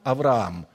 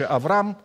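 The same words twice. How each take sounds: First: The name is drawn out a little longer. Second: The name is said short, not drawn out. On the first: It means father of many nations. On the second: It means simply a father.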